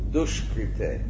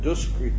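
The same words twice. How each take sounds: First: The middle consonant is an sh sound. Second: The middle consonant is a plain s sound. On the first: The speaker calls it right. "it's sh" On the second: The speaker calls it wrong. "And that's not duskrite"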